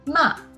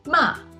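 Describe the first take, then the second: First: The pitch falls sharply from high to low. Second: The pitch falls sharply from high to low.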